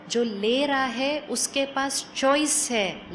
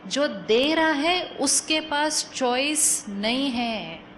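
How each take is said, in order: First: Slow, with ले and choice है drawn out; stress on ले. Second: Slow, with दे punched and नहीं held out; stress on दे. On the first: Teacher contrasting the one who receives, stress on ले and choice. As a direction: weigh ले deliberately against its opposite. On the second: Teacher warning the one who gives, stress on दे and नहीं. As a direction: land firmly on दे, then spell out नहीं. Contrasts giver with receiver. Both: Shown as a demonstration.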